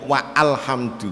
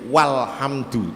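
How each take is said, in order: First: A glottal stop separates wa from alhamdu. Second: Wa links straight into lhamdu with no break. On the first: The speaker calls it wrong. "tidak wa alhamdu" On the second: The speaker calls it right. "menjadi walhamdu"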